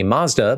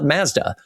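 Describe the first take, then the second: First: It uses the pronunciation heard in the US. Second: It uses the pronunciation heard in Canada. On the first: "in the U S we call the car company Mazda" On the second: "in Canada they call it Mazda"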